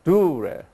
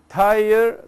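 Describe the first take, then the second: First: The name is said with Greek pronunciation. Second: The name is said with English pronunciation. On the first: "in Greek it's U, so it's a dure" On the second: "that is also English"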